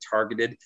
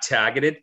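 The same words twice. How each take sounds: First: The R after the first vowel is pronounced. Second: The R after the first vowel is dropped. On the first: "I'm really trying to put that R in there" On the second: "targeted is how I grew up saying it"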